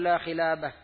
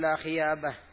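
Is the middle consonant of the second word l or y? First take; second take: l; y. First: The second word has a clear l sound. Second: The second word has a y sound instead.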